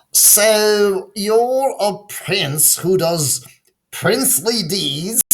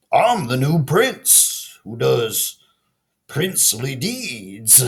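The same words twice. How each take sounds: First: Higher, slow whispered teasing of princely deeds; mocking townspeople. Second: Slow, earnest announcement of princely deeds; proud frog prince. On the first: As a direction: tease him under your breath. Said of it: "The townspeople laughed to themselves". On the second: Acted. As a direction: announce yourself grandly but sincerely. Frog proudly introduces himself.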